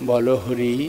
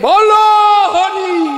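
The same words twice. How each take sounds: First: The phrase is said softly. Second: The phrase is shouted loudly. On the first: It is calm and does not frighten. The speaker calls it right. "এভাবেই যদি বলে বলে যায় কি অসুবিধা হবে?" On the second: It frightens the listeners. The speaker calls it wrong. "এমন চিৎকার করে উঠবে"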